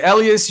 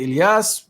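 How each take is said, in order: First: "Elias" as EL-ee-us, stressed first syllable; Anglicized Elias. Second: "Elias" as ill-ee-AHS, open final vowel; alternative Elias pronunciation. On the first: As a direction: say "Elias" the English way, EL-ee-us. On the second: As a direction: say "Elias" as ih-lee-AHS, ending on a clear AH. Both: Shown as a demonstration. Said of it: "make fun of the way I say it".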